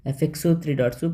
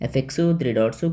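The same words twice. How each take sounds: The two takes are said the same way.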